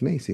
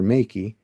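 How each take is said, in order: First: The C is said as an S sound. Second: The C is said as a K sound. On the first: The speaker calls it right. "but it's Macy" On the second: The speaker calls it wrong. "I've had people call me Doctor Makey"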